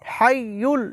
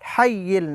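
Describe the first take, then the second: First: The second vowel is a u sound. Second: The second vowel is an i sound. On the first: The speaker calls it right. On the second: The speaker calls it wrong. "হাইয়িল না"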